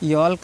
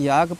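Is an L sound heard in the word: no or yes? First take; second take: yes; no. First: The word is said with an L sound. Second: The word is said without an L sound. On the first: The speaker calls it wrong. "यॉल्क नहीं" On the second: The speaker calls it right. "याग पढ़ना है"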